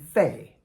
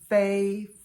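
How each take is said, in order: First: It is said with the fourth tone. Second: It is said with the first tone.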